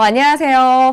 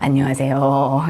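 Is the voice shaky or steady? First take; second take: steady; shaky. First: The voice is steady and calm. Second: The voice trembles and shakes. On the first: The speaker is composed. The speaker calls it right. "이렇게 하면 되는데" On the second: The speaker is nervous. The speaker calls it wrong. "이렇게 음성이 떨린"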